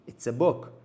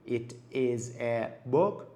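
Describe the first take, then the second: First: The words run together, linked into one. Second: Each word is said separately, not linked. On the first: The speaker calls it right. "it با is connect میشه، is با a connect میشه و حتی a با book connect میشه" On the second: The speaker calls it wrong. "به جای اینکه بگیم"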